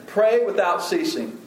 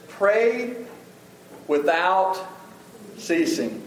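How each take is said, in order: First: Said in the usual way. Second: "Pray without ceasing" with a pause after "Pray" and after "without"; slow, word by word. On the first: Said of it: "What does that mean?". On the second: Shown as a demonstration. Pastor quoting Paul's command to the church, each word set apart. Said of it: "But one of those is".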